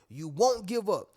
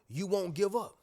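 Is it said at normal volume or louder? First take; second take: louder; normal. First: It is said louder, with more force. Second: It is said at normal volume.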